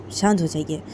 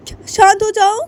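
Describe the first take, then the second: First: Calming plea. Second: "शांत" yelled high and loud in scorn; angry mother mocking the plea to calm down; furious mocking echo. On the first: Acted. Calming the angry mother. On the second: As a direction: spit the word "शांत" back, screaming.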